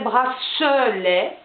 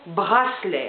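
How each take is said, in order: First: It is said with a southern French accent. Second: It is said with a Dijon French accent. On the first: This is how people in the south say it. "les gens qui vivent dans le sud de la France et qui ne parlent pas avec le même accent que nous, diraient bracelet" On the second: This is how people in Dijon say it. "Nous ne parlons pas comme ça, nous disons bracelet à Dijon"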